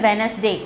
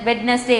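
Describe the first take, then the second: First: வெனஸ்டே with no D before the N; silent D. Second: Put-on வெட்னஸ்டே with the first D heard, as children wrongly say it; mispronounced, D sounded. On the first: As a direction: say வெனஸ்டே as "WENZ-day". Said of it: "டி வந்து silence pronunciation". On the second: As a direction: put a D stop before the N in வெட்னஸ்டே. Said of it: "சில குழந்தைங்க தப்பா pronounce பண்ணுவாங்க". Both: Shown as a demonstration.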